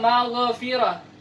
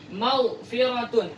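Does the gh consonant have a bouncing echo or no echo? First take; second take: bouncing echo; no echo. First: The gh consonant ends with a bouncing echo. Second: The gh consonant is held without any bounce. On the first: The speaker calls it wrong. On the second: The speaker calls it right.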